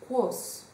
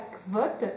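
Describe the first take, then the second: First: The name starts with k and ends in s. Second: The name starts with kv and ends in t. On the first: The speaker calls it right. "ça se prononce Quos" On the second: The speaker calls it wrong. "ça ne se prononce pas Kvot"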